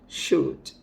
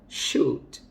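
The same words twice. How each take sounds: Both takes have the same delivery.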